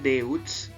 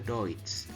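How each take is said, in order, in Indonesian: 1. Vokalnya dibaca huruf per huruf: e-u. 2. Vokalnya diucapkan sebagai satu bunyi: oi. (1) "tulisannya Deutsch" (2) "tapi bacanya Deutsch"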